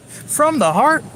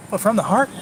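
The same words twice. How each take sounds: First: "From the heart?" pitched much higher with a long rising doubt; mock incredulous. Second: Said in the usual way. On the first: Vlogger mocking the advice, incredulous high rise. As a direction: act out disbelief at the idea.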